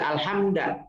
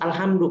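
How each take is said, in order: First: The word ends with an 'a' vowel. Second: The word ends with a 'u' vowel. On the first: The speaker calls it wrong. "Tidak boleh dibaca alhamda" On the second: The speaker calls it right. "tapi harus alhamdu"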